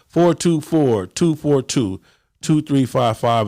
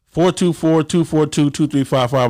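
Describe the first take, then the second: First: The number is said slowly. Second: The number is said at normal speed.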